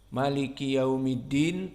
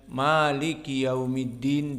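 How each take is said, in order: First: The first vowel of maliki is short. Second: The first vowel of maliki is lengthened. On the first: "tanpa mad" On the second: "dengan mad"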